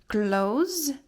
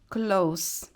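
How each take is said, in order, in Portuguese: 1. O último som é um z, que vibra. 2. O último som é um s, que sibila.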